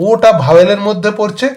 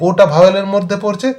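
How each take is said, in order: The two takes are said the same way.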